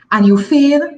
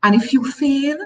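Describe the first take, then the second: First: Fail said louder with a rising tune; stress on fail. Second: Said in the usual way. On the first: Shown as a demonstration. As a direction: punch fail and lift it.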